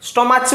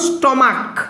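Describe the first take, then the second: First: The word ends with a 'ch' sound. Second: The word ends with a 'k' sound. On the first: The speaker calls it wrong. "স্টমাচ বলো" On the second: The speaker calls it right. "সিএইচ এর উচ্চারণ যদি ক এর মতো হয়"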